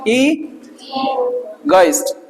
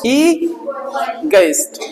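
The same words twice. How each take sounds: First: "egoist" slow with the stress on "ई", light "गो"; corrected slow model word. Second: "egoist" slow with too much weight on "गो"; wrong take with a heavy "गो"; overstressed go. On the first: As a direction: hit "ई" in "egoist". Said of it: "इस पे stress लगा हुआ है". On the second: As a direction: drag "egoist", pushing the "गो". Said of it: "गो ज्यादा बोलने की जरूरत नहीं". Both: Shown as a demonstration.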